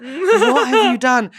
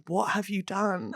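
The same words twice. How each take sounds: First: Slow, stretched question with laughter; hammed-up, fully voiced reproach; mock appalled. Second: Slow, very soft and low question; restrained, near-silent reproach; hushed dread, imitated. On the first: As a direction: imitate an appalled colleague, amused. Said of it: "but being like". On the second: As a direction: imitate a colleague quietly holding it together. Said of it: "consummate professional, but being like".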